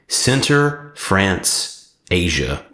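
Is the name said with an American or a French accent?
American. The name is said with an American accent.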